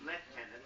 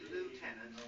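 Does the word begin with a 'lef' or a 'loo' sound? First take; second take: lef; loo. First: The first syllable sounds like 'lef'. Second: The first syllable sounds like 'loo'. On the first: The speaker calls it right. "the good old English lieutenant" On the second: The speaker calls it wrong. "I don't say lieutenant, I don't like lieutenant"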